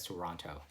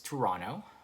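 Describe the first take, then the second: First: The second T sound is clearly pronounced. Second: The second T sound is dropped. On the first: The speaker is from outside the city. "if you're from a different province, then maybe you'd call it as Toronto" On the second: The speaker is a local. "You don't really pronounce the T there"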